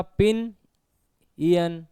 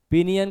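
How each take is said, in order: First: पिन, a clear pause, then इयन; पिन इयन pulled apart for the learner; broken into syllables. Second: Said in the usual way. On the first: Shown as a demonstration. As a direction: split पिन इयन into two separate beats. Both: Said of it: "pinion का क्या होगा?".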